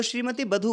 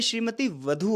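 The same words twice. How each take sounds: First: बधू said with a plain ब sound; श्रीमती बधू with b, shown as wrong; wrong spelling. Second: वधू said slowly with a clear व sound; श्रीमती वधू, v not b, x0.6; correct spelling. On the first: Teacher showing the wrong form, बधू with b. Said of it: "गलत है". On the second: Teacher giving the correct form, slow वधू. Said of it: "ये श्रीमती वधू होगा". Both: Shown as a demonstration.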